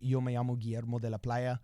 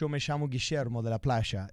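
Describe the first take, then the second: First: It is said with a Central American or Iberian accent. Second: It is said with an Argentine accent.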